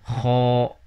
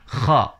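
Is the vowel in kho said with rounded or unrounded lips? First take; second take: rounded; unrounded. First: The vowel is said with rounded lips. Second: The vowel is said with unrounded lips. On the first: The speaker calls it wrong. "dimonyongkan nih, itu salah" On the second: The speaker calls it right. "jadi si posisi bibir itu tidak monyong"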